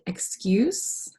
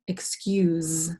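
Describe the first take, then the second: First: The final consonant is a hissing s sound. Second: The final consonant is a buzzing z sound. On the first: "k, u, s, cuse, like excuse" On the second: "k, u, z, excuse"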